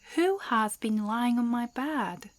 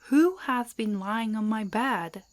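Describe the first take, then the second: First: It is said in a medium-sized voice. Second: It is said in a big, deep voice.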